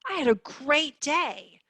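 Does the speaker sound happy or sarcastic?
happy. It sounds genuinely happy and upbeat. The day really was great. "you would say, that's fantastic. Tell me about it"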